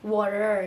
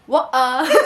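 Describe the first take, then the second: First: It is said with an American accent. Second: It is said with a British accent. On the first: "kalau orang Amerika kan water water ya" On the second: "kalau orang Inggris bilangnya water"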